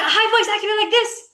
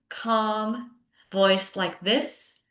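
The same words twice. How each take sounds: First: Much higher, fast and tense; a frazzled teacher's high, hurried voice; high activated voice. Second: Slow, calm and steady; slow right down and settle the voice; soothing a class with an unhurried calm voice; low calm voice. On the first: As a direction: pitch it way up and rush like a stressed teacher. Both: Shown as a demonstration.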